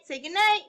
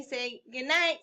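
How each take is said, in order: First: High sing-song coaxing; sleepy talk to pet. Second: Said in the usual way. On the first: Real, not acted. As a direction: coax a little buddy, lilting high.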